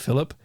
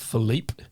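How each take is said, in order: First: The name is said with English pronunciation. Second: The name is said with French pronunciation. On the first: This is the form his coworkers used. "Obviously, we called him Philip" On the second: This is the name's original form. "called Philippe"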